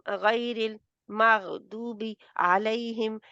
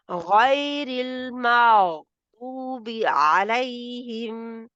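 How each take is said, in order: First: The phrase is broken up with pauses. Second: The phrase is said joined, without pauses.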